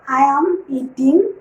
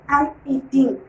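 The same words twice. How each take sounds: First: The word 'am' is said fully with stress. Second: The word 'am' is reduced and unstressed. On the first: "Instead of I am eating" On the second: "Here am carries no stress. Such words are called weak forms"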